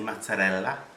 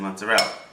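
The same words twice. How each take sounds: First: It is said with an Italian pronunciation. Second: It is said with a non-Italian pronunciation. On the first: "the typical Italian that says things in Italian. Like, I don't say mozzarella" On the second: "I say mozzarella"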